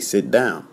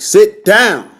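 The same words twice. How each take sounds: First: It is said calmly, without force. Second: It is said loudly and forcefully.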